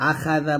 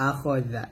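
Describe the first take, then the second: First: আখা জা with an open "kha" in the middle; flattened "aa" vowel in আখা; wrong open KHA. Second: আখ জা with a rounded "kho" in the middle; full "kho" vowel before জা; correct rounded KHO. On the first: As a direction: say the খা wide as "kha". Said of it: "আখা জা বলবেন না". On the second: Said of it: "বলবেন না". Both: Shown as a demonstration.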